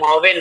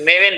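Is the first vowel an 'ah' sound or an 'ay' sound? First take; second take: ah; ay. First: The first vowel is an open 'ah' sound. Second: The first vowel is an 'ay' sound. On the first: The speaker calls it wrong. "मावेन मत बोलिए" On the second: The speaker calls it right. "मेवेन बोलिए"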